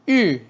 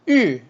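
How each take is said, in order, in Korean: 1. 음높이가 높은 데서 낮게 급격히 떨어져요. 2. 음높이가 높은 데서 낮게 급격히 떨어져요.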